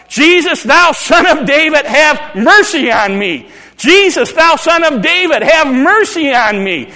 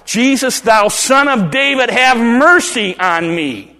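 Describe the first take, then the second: First: Much higher, loud pleading shout; calling out. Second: Loud, slow plea; crying out. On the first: Bartimaeus shouting over the crowd to Jesus, desperate. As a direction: cry out to be heard over everyone. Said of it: "I'm gonna keep calling out". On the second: Bartimaeus crying out to Jesus, loud and pleading. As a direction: call across the crowd, begging. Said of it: "he starts to cry out". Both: Pretend.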